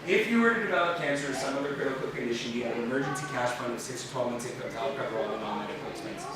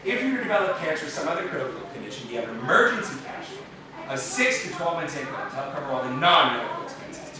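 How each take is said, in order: First: It is read plainly without extra emphasis. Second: The word all is clearly emphasized.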